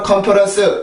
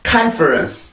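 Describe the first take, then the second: First: Korean-style, with even, flat syllables. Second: English-style, with strong first-syllable stress. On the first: The speaker calls it wrong. "한국어처럼 컨퍼런스 이게 아니라" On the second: The speaker calls it right. "큰 리듬이 있고 ... 첫 번째 큰 강세"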